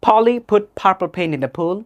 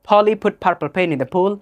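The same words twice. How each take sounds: No difference in how they are said.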